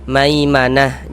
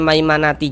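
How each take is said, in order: First: The word ends with a soft 'ah' sound. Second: The word ends with a full 'ati' sound. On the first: The reading stops on this word. The speaker calls it right. "kita baca maimanah" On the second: The reading runs on into the next word. The speaker calls it wrong. "jangan dibaca maimanati"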